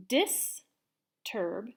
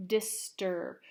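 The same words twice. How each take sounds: First: Whispered. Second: Said in the usual way. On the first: Shown as a demonstration. Teacher whispering Disturb to class, whispered. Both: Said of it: "teacher models word for students".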